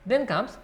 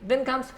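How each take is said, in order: No difference in how they are said.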